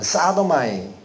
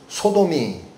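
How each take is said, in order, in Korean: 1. 영어식으로 읽습니다. sa-do-ma-i. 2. 한국어 음절로 읽습니다. so-dom-i.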